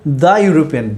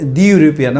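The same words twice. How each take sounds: First: The word 'the' is said as 'thuh'. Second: The word 'the' is said as 'thee'. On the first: The speaker calls it right. "you have to say the European" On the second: The speaker calls it wrong. "don't say the European"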